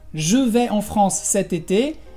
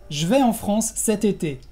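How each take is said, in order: First: The vowel in je is fully pronounced. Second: The vowel in je is dropped. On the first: "en lugar de decir" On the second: "decimos rápido"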